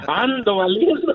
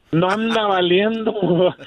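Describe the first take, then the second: First: Laughing at himself. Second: Said in the usual way. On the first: Real, not acted. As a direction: chuckle through the self-mocking pun. Caller jokes about himself, laughing.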